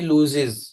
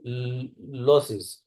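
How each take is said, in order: First: The vowel is a long 'oo' sound. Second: The vowel is a short 'o' sound. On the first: The speaker calls it wrong. "I am pronouncing pronouncing wrongly" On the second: The speaker calls it right. "लूज नहीं लॉसेस होगा word ये"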